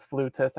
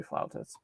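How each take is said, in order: First: "flutist" with an oo, as in flute; "flutist", first syllable like flute; pronounced flutist. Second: "flautist" with an ow in the first syllable; "flautist", quick and soft, ow vowel; pronounced flautist. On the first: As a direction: say "flutist" as FLOO-tist. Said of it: "they pronounced it as flutist". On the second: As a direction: say "flautist" as FLOW-tist, rhyming with now. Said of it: "supposed to be flautist". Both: Shown as a demonstration.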